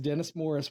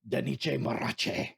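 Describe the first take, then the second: First: The R sounds are not rolled. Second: The R sounds are rolled.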